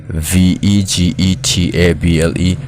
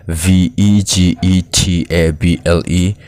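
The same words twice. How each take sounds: The two takes are said the same way.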